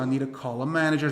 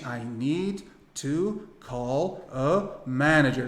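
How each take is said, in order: First: "need to call a" fused as "needa calla"; smooth connected "I need to call a manager"; everything linked. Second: Very slow, one word at a time; painstaking learner's word-by-word English; unlinked words. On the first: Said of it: "Vai emendar tudo isso". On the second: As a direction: separate every word with a clear gap. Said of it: "nenhum americano fala assim". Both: Shown as a demonstration.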